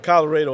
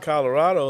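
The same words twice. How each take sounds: First: The name is pronounced in the local West Texas way. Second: The name is pronounced the way it is spelled. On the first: The speaker is a local. The speaker calls it right. "that's how the locals know if you're from that area" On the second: The speaker is not from West Texas. The speaker calls it wrong. "if you call it Colorado like it's spelled"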